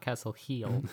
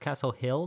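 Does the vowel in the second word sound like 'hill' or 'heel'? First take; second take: heel; hill. First: The second word has a long 'ee' vowel. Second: The second word has a short 'i' vowel. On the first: The speaker calls it wrong. "not Castle Heel" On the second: The speaker calls it right. "it's Castle Hill"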